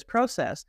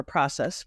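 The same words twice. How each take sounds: First: "process" with a long O, as in "pro"; Canadian pronunciation. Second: "process" with an open AH, as in "prah"; American pronunciation. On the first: Coach describing her client process, Canadian pronunciation of "process". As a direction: say "process" the Canadian way, PROH-sess. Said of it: "I speak Canadian and English". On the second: Coach correcting herself for American friends, American pronunciation of "process". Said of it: "for my American friends". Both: Shown as a demonstration.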